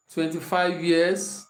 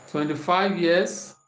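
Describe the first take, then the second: No difference in how they are said.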